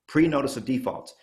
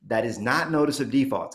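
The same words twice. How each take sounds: First: « pre-notice » avec le pre appuyé; stress on pre. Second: Said in the usual way. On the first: Shown as a demonstration.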